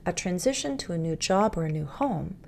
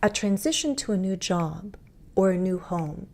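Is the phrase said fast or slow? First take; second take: fast; slow. First: It is said faster, with fewer breaks. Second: It is said slowly, broken into several groups. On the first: "I want to go a little bit faster" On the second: "that's like really slow and deliberate"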